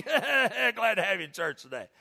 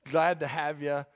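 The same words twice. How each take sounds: First: Slow, higher, laughing mock greeting; wrong welcome. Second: Sincere, easy greeting without the teasing; welcoming. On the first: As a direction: laugh through a hammed-up, teasing welcome. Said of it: "No, don't do that". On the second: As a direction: greet a guest kindly, as an usher should. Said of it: "Be welcoming". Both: Shown as a demonstration.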